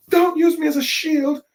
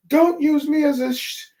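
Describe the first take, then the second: First: Much higher, louder indignant complaint; Usopp complaining. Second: Much higher, louder cartoon protest; Usopp protesting. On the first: Retold or imitated. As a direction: yelp it out, offended at being a shield. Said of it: "Usopp's complaining". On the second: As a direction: squeal it like a cornered coward. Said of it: "and Usopp says".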